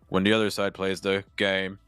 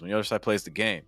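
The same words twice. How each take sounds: First: The pitch stays flat across the phrase. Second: The pitch moves up and down across the phrase. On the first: The speaker calls it wrong. "it's a little monotone" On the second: The speaker calls it right. "that's personally how I"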